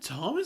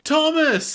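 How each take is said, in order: First: The name is said in an unsure, questioning way. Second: The name is said in a certain, knowing way. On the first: She doubts who the person is. "Like she's not sure" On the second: She already knows who the person is. "like she just knows"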